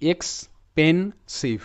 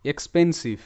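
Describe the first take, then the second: First: expensive stretched slowly, syllable by syllable; teacher sounding out expensive in slow parts; slow syllable breakdown. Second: Said in the usual way. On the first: Shown as a demonstration. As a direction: pull expensive apart slowly. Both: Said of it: "ভেঙে ভেঙে উচ্চারণটা এমন হবে".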